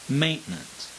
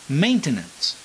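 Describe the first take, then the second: First: The middle T is pronounced softly. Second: The middle T is pronounced strongly and harshly. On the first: "we do not pronounce the letter T in the middle of the word ... as strongly" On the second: "they become very harsh sounding"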